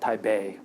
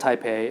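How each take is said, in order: First: The second syllable begins with a b sound. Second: The second syllable begins with a p sound. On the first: The speaker calls it right. "The P should be pronounced like a B" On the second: The speaker calls it wrong. "It's not called Taipei"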